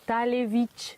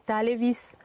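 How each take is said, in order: First: The word ends with an "sh" sound. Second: The word ends with an "s" sound. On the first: The speaker calls it right. "papa il vient de dire que c'est Talevich" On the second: The speaker calls it wrong. "J'ai mis un S. Du coup, si tu le prononces, ça te fait Talevis"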